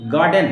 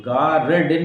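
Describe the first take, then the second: First: "गार्डन" with no R before the D; "गार्डन" said as "gaa-den"; silent R. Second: "गार्डन" with the R drawn out as its own beat; "गार्डन" said as "gaa-rr-den"; wrong pronunciation, R sounded. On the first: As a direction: drop the R inside "गार्डन". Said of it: "आर drop करना है". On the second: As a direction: exaggerate the R in "गार्डन". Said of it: "नहीं कर". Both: Shown as a demonstration.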